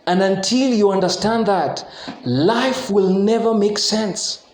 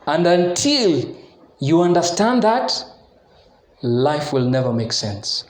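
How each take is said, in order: First: It is said fast. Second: It is said slowly.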